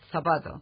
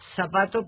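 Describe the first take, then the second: First: The z is pronounced like English th. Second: The z is pronounced like an s. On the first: This is the standard peninsular form. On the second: This is the American Spanish variant.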